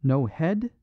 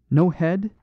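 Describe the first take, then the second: First: Musing repeat. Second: Sharp high, louder startled question; startled concern. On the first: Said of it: "he repeated". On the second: Priest startled at the headless skeleton. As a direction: leap up in startled alarm. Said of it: "showed a leap of startled concern". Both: A narrator's reading.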